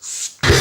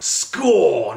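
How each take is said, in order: First: It is said in a metallic, heavy-metal voice. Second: It is said in his normal voice.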